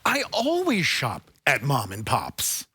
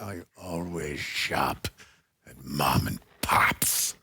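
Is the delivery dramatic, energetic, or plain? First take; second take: energetic; dramatic. First: It is said with more energy. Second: It is said in a dramatic way. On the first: "Can you say it with more energy? More" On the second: "Do you want a dramatic?"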